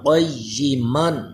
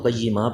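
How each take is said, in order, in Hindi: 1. यह शब्द 'n' की ध्वनि से खत्म होता है। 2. यह शब्द लंबे 'a' स्वर से खत्म होता है। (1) "वरना क़य्यिमन" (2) "अगर क़य्यिमा पे वक्फ़ करें तो क़य्यिमा पढ़ेंगे"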